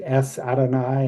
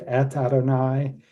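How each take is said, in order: First: The first word ends with an s sound. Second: The first word ends with a t sound. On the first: "a s sound" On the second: "instead of"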